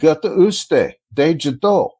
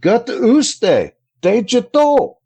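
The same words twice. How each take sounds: First: It is said plainly, without extra expression. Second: It is said with more expression.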